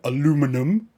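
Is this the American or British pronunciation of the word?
American. The word is said with four syllables. The speaker calls it wrong.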